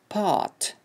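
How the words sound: The r after the vowel is dropped. "British English bo'lsa part"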